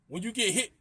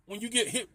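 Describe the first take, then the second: No difference in how they are said.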